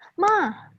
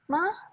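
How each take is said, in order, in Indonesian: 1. Nadanya dari tinggi ke rendah, membentak. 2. Nadanya didorong tinggi. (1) "yang ketiga ma ya tinggi kerendahnya kayak bentak" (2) "yang keempat nada tinggi tinggi tinggi tinggikan aja"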